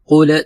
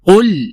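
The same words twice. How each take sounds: First: A vowel is added after the final l. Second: The final l has no vowel after it. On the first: The speaker calls it wrong. "जिस तरह बाज लोग पढ़ते हैं" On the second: The speaker calls it right. "बगैर हरकत के अदा करना है"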